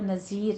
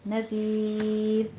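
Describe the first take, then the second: First: The middle consonant has a hissing, whistling sound. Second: The middle consonant is soft, without any hiss. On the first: The speaker calls it wrong. "नज़ीर नहीं, सीटी की आवाज़ नहीं लानी है" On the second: The speaker calls it right. "बारीक पढ़ना है, इसको नरमी के साथ पढ़ना है"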